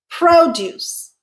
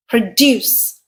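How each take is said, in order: First: "Produce" as PRO-duce, high on PRO; stress on first syllable. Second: "Produce" as pruh-DUCE; stress on second syllable. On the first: Teacher repeats the noun, "Produce" stressed on PRO. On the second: Teacher sums up the verb, "Produce" stressed on DUCE. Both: Shown as a demonstration. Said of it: "we could pronounce this word as".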